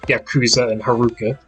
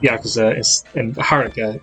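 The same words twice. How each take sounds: First: The names are pronounced the English way. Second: The names are pronounced the Japanese way. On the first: The speaker calls it wrong. "instead of" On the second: The speaker calls it right. "pronounce the Japanese names correctly"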